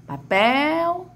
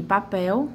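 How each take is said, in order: First: High "Papel" with the final "pel" held long; "Papel" rising onto a long "pel"; calling out stretched. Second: Said in the usual way. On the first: Shown as a demonstration. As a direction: call out "Papel", stretching the last syllable. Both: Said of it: "Vamos chamar papel".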